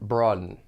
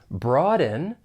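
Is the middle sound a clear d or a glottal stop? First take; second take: glottal stop; clear d. First: It has a glottal stop in the middle. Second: It has a clear d sound in the middle.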